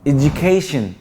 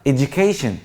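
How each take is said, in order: The two takes are said the same way.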